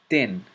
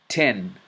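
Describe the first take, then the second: First: It starts with the tongue held behind the teeth. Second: It starts with a regular English t sound. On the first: "then with the letter ta" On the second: "first with the letter T"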